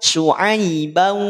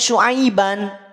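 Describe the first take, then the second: First: The ending merges into a w sound. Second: The ending is a clear n sound. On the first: "tidak lagi dengan an, tapi akan melebur menjadi au" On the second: "Asalnya memang dibaca Syuaiban. Tanwin fathahnya jelas"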